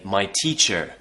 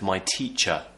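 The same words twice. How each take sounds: First: The final R sound is clearly pronounced. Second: The final R sound is not pronounced. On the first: The speaker calls it wrong. "they might say my teacher" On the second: The speaker calls it right. "instead of my teacher"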